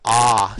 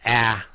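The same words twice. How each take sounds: First: An open back vowel, as in father. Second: A front vowel, as in apple. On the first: The speaker calls it right. "It's an ah sound" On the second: The speaker calls it wrong. "not an ah sound"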